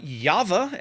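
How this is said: The name is said with a Dutch pronunciation. "as you would say it in Dutch"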